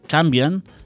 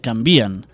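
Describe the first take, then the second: First: The stress falls on the syllable 'can'. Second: The stress falls on the syllable 'vi'. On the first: The speaker calls it wrong. "la pronúncia correcta de canvien" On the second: The speaker calls it right. "seria canvien"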